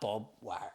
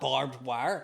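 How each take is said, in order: First: The first word is said as 'Bob'. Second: The first word is said as full 'barbed'. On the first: This is how people in West Belfast say it. "That's what it's called in West Belfast" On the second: This is the standard form nobody local uses. "No one says"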